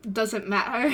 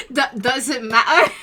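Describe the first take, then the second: First: Said in the usual way. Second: Laughing through the line. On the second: Acted. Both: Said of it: "I can't do an accent".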